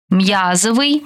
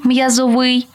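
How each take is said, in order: First: М'Язовий, stressed on the first syllable. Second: М'язоВИЙ, stressed on the final syllable; stress on last syllable. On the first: Teacher showing variant stresses to student, first-syllable stress on м'язовий. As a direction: punch М'Я in м'язовий. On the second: Teacher showing variant stresses to student, final stress on м'язовий. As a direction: land on ВИЙ in м'язовий. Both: Shown as a demonstration. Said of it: "Такий наголос ще називають варіантним".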